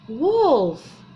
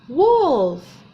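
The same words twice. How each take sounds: Both takes have the same delivery.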